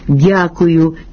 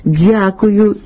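First: The d sound is plain, without hissing. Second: The d sound has a hissing dz quality. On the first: The speaker calls it right. "замість" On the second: The speaker calls it wrong. "свистячого відтінку"

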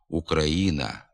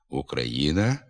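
First: The ї is said as a single i sound. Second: The ї is said as y plus i. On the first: The speaker calls it wrong. "Вимова одного звука «і» на місці букви «ї» ... не відповідає літературній нормі" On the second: The speaker calls it right. "Слід вимовляти"

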